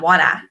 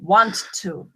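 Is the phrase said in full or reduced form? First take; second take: reduced; full. First: The words are blended into one reduced word. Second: Both words are said fully and separately. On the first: "Not wanna" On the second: "I'm going to speak as a British right now"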